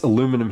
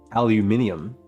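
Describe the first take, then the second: First: It is said with an American pronunciation. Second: It is said with a British pronunciation. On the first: "It's aluminum here"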